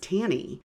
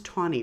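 First: The first syllable does not sound like tawny. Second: The first syllable sounds like the colour tawny. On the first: "I've heard it also as Taney" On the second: "I always heard it was Tawney, like the color"

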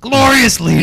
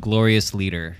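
First: It is shouted very loudly. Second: It is said at normal volume.

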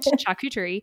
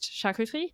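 First: The word is said with English pronunciation. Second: The word is said with French pronunciation. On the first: The speaker calls it wrong. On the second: The speaker calls it right. "I do speak some French, so I know that on the menu there it's actually pronounced"

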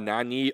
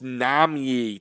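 First: The middle consonant is an n sound. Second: The middle consonant is an m sound. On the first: The speaker calls it wrong. "I keep saying Nanyi" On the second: The speaker calls it right. "it's Nam-Yi"

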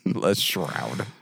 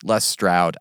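First: The surname starts with an sh sound. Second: The surname starts with an st sound.

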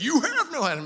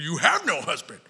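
First: The words are said in a gentle, softened tone. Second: The words are said in a harsh, blunt tone. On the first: The remark sounds softened for children. "For my kids" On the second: The remark sounds brutal and condemning. "we read it in our tone of voice, ... That's how I read it"

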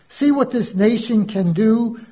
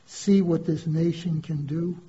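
First: It is said in a proud, euphoric tone. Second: It is said in a sad, bitter tone. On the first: The nation has achieved something to celebrate. "My chest swollen with pride" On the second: The nation has done something to regret. "same words, different reaction"

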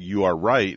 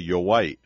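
First: The last word starts with a clear R sound. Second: The last word starts with a W sound. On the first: The speaker calls it right. "instead of saying you are right" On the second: The speaker calls it wrong.

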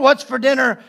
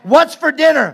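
First: It is said in a suspicious tone. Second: It is said in an angry tone.

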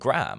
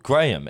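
First: It is said as one syllable, like gram. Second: It is said as two syllables, gray-um.

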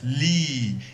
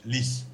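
First: The word ends without any s sound. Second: The word ends with an audible s sound. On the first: This is the old pronunciation. "In old French" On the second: This is the modern everyday pronunciation. "In normal French"

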